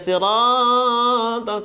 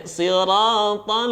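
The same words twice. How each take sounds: First: "siratal" with "raa" held far too long; wrong, overstretched chanted "siratal"; overlong madd. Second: "siratal" with "raa" moderately long; swung madd. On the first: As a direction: drag out the middle vowel of "siratal". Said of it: "tidak boleh kepanjangan". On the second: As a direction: swing the middle vowel of "siratal" without dragging. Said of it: "ayun saja". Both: Shown as a demonstration.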